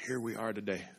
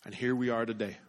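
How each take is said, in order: First: "Here we are today" repeated much softer, stress on "Here"; soft echo. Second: Said in the usual way. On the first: Shown as a demonstration. Pastor quietly repeating his point to the congregation.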